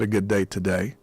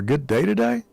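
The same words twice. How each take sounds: First: The voice falls at the end like a statement. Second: The voice rises at the end like a question. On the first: It makes a statement. "then it's a statement rather than a question" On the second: It asks a question. "that would indicate there's a question there"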